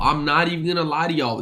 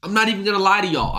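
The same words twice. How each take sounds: First: Said in the usual way. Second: Fast. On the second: Real, not acted. Repeated confession.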